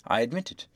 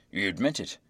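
First: Said in the usual way. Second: Low-pitched question on "admit it"; deep voice, "admit it" turned up as a question; judge's query. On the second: A narrator's reading. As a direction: question "admit it" with a closing rise.

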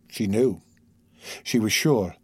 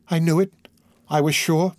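First: Said in the usual way. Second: Higher, triumphant anguished exclamation; raised voice of anguished certainty; exulting cry. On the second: A narrator's reading. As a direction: cry out in pained triumph, pitched up. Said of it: "by an exulting and terrible cry".

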